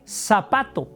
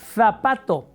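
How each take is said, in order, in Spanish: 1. El primer sonido es una s normal. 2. El primer sonido es una th, con la lengua entre los dientes. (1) "es indistinto para nosotros, al menos en, en México" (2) "Ponen la lengua en medio de los dientes"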